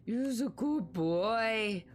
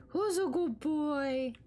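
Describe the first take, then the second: First: Dog praise voice. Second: High, slow cooing praise; baby talk to a dog. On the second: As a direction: coo at the puppy. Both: Pretend.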